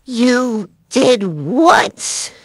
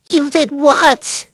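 First: A loud, very slow retake; slow rising disbelief. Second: Loud, drawn-out shocked question; shocked disbelief. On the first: Second take of the line. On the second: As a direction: hit it like you can't believe it. Rehearsing a shocked line. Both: Acted.

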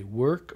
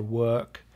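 First: "work" with the R clearly sounded; R kept. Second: "work" with no R sound, just a long vowel; R dropped. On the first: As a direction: say "work" rhotic, with a full R. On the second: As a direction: say "work" non-rhotic, dropping the R. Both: Shown as a demonstration. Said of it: "do they keep the R or not".

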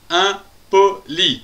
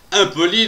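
First: "Impoli" in three slow, separated beats; "Impoli" broken into distinct syllables. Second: Said in the usual way. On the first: Shown as a demonstration. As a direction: say "Impoli" with a gap after each syllable. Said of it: "trois syllabes".

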